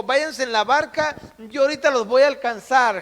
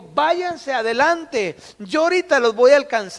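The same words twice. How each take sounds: First: Said in the usual way. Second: Drawn out then quick. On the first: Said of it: "les dijo". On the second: Acted. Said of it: "le dijo".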